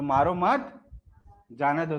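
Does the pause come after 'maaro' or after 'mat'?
after mat. The pause comes right after the second word. The order is to spare.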